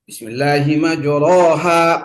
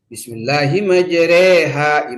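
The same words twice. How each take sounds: First: The vowels have an open a quality. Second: The vowels lean fully toward e.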